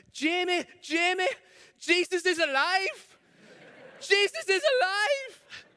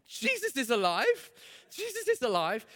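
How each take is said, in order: First: Put-on high, loud, slow shout of a thrilled girl; excited shouting child. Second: Put-on joyful little girl. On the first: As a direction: call across the playground to a friend. Girl calling out to friend. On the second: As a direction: sing it out like a thrilled small girl. Girl voiced, overjoyed.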